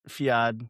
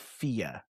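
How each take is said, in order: First: The word ends with a D sound. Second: The word ends on a vowel, no D. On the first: The speaker calls it wrong. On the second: The speaker calls it right.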